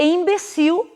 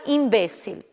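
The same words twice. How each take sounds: First: Imbecil stressed on CIL, final l as w; Portuguese pronunciation. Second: Imbécil stressed on BE; Spanish pronunciation. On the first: Teacher giving the Portuguese word, final stress. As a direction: land on the end of imbecil. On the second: Teacher giving the Spanish word, stress on BE. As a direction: hit BE in imbécil. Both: Shown as a demonstration. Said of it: "em espanhol será".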